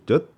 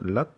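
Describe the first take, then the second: First: It starts with a Korean ㅈ sound. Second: It is said with a southern Vietnamese accent. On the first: "한국의 지읒 발음으로 젓, 젓 이러면 안 돼요. 이거는 틀린 발음이에요" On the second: "남쪽은 랏"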